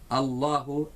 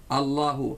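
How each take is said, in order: No difference in how they are said.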